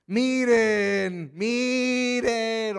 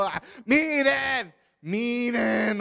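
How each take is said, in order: First: Louder, higher, fed-up shout; healed man losing patience with the Pharisees, exasperated yell. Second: Slow, higher, pleading desperation; healed man pleading with the Pharisees, slow desperate cry. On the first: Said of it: "Es posible que ya estaba gritando". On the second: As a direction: drag it out like a man at his wits' end. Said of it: "o desesperado". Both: Acted.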